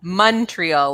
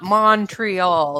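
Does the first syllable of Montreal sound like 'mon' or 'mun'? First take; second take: mun; mon. First: The first syllable sounds like 'mun'. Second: The first syllable sounds like 'mon'. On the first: The speaker sounds local. The speaker calls it right. "like money" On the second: The speaker sounds American. The speaker calls it wrong. "it's not Montreal"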